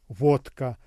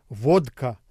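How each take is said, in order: Both takes have the same delivery.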